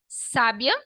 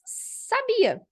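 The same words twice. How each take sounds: First: "sábia" stressed SÁ-bia; "sábia" with its weight up front; stress on first syllable. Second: "sabia" stressed sa-BI-a, high and slow; drawn-out "sabia", pitched up on BI; stress on middle syllable. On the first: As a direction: hit the SÁ in "sábia". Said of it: "colocar o acento no A no início". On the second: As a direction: lift the BI in "sabia". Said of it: "se eu tiro o acento completamente". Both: Shown as a demonstration.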